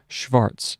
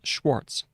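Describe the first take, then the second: First: The name is pronounced the German way. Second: The name is pronounced the English way. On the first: "saying that in uh, German, then it would be Schwarz" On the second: "the line underneath gives us Schwartz"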